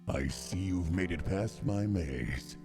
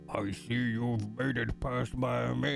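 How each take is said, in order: First: It is said in a put-on evil voice. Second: It is read in a plain, normal voice.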